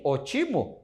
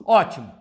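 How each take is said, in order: First: Ótimo with a closed o and no stress on the first syllable; without the accent. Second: Ótimo with the stress on the first syllable, open Ó; proparoxytone stress. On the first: Teacher to students, asking how ótimo sounds without its accent. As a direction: read ótimo as if the accent mark were gone. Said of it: "existe uma palavra escrita assim". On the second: Teacher to students, saying Ótimo as written with the accent. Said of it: "vamos pegar um exemplo da palavra ótimo". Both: Shown as a demonstration.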